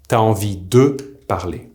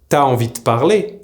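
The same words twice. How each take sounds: First: The vowel of de is fully pronounced. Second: The vowel of de is dropped. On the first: The speaker calls it wrong. "and not" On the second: The speaker calls it right. "This is why I said"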